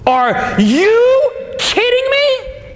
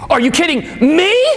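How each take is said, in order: First: The stress falls on the word you. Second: The stress falls on the word me. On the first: It is this person rather than someone else. "That means, are you kidding me, as opposed to somebody else" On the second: It is done to this person rather than someone else. "as opposed to someone else"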